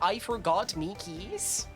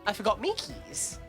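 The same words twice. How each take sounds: First: It is said with each word carefully enunciated. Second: It is said casually, words run together.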